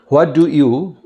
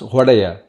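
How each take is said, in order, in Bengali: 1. প্রতিটি শব্দ আলাদাভাবে ও পুরোপুরি বলা হয়। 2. শব্দগুলো মিশে গিয়ে একটি সংক্ষিপ্ত শব্দ হয়ে যায়।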